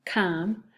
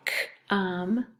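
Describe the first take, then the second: First: Said in the usual way. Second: "C-om" with the C split off; sounded out. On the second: Shown as a demonstration. Teacher breaking down a first syllable, "C-om" in separate sounds. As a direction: isolate the C, then "om". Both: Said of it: "That's two syllables too".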